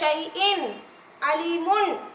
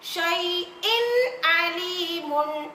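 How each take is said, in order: First: There is a pause between the two words. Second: The two words run together in one breath. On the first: The speaker calls it wrong. "இங்க ஸ்பேஸ் கொடுத்துருக்காங்க, அதனால ஷைஇன் அலீமுன் அப்படின்னு படிக்கலாம் நினைச்சு படிக்க கூடாது" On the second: The speaker calls it right. "ஒரே மூச்சை கொண்டு சொல்லணும்"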